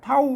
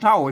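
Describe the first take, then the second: First: It is said with the special tho tone. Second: It is said with the normal tho tone. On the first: "เท่าเสียงโทพิเศษ" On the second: "มันเท่าเสียงโทปกตินะ"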